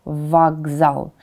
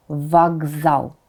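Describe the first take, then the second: No difference in how they are said.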